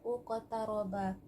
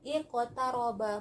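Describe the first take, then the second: First: The word begins with a u vowel. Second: The word begins with an i vowel. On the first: The speaker calls it wrong. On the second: The speaker calls it right. "hamzahnya kita bariskan kasroh"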